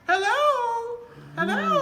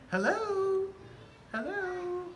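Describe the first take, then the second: First: It is said loudly, with a raised voice. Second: It is said at a normal volume.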